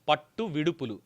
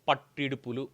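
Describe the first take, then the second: First: Two separate words, each said in full. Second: The two words merge into one shortened word.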